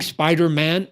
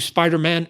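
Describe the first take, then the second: First: The stress falls on the word man. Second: The stress falls on the word spider. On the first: The human side of the character comes first. "emphasis on man" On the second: The insect side of the character comes first. "emphasis on the word spider"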